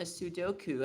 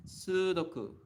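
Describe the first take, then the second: First: "Sudoku" anglicised, with a gliding "doh" in the middle; common mispronunciation of Sudoku. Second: "Sudoku" with long "soo", short even "doku"; Japanese pronunciation of Sudoku. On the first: Retold or imitated. Teacher quoting what people tend to say, anglicised pronunciation. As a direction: say "Sudoku" as "suh-DOH-koo". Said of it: "they tend to say". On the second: Shown as a demonstration. Teacher showing the two U's, Japanese pronunciation. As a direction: hold the first vowel of "Sudoku": "SOO-doku". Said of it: "Actually, it's Sudoku".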